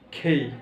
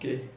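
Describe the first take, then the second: First: The k is said with a strong puff of air. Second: The k is said without a puff of air. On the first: The speaker calls it right. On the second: The speaker calls it wrong. "Not কে"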